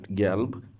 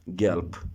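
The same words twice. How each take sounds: First: The final consonant is a voiced b sound. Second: The final consonant is a voiceless p sound. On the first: The speaker calls it wrong. "This is not gelb" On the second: The speaker calls it right. "You have to pronounce it like P"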